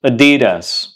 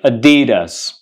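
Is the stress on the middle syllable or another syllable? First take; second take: middle; middle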